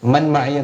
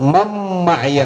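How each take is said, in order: First: The n is pronounced separately before the m. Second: The n merges nasally into the following m. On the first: The speaker calls it wrong. "എന്നല്ല" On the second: The speaker calls it right. "മൻ മഅയ എന്നാണ്"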